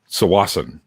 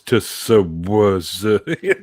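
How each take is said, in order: First: The name begins with a plain 's' sound. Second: The name begins with a 'ts' sound. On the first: The speaker calls it right. "It's a place called Sawasan" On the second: The speaker calls it wrong. "people when they read it, it's Tsawasa"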